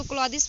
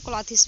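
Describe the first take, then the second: First: "clothes" voiced as klaa-dis; soft d pronunciation. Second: "clothes" as klaa-this; th pronunciation. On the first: Teacher showing learners one accepted way of saying "clothes", voiced d pronunciation. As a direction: say "clothes" with a soft d before the final s. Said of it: "इसको clothes भी बोल सकते हैं". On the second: Teacher showing learners the other accepted way of saying "clothes", unvoiced th pronunciation. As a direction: say "clothes" with an unvoiced t-h before the final s. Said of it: "और clothes भी बोलते हैं". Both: Shown as a demonstration.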